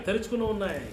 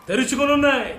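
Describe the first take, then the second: First: Quieter echo of తెరుచుకుని ఉన్నాయి; second take hushed; soft echo. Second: Loud high proclamation; first take proclaimed loudly; emphatic repeat. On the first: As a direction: let the repeat fall away softly. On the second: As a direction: ring it out to the church. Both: Acted. Preacher repeats verse phrase twice.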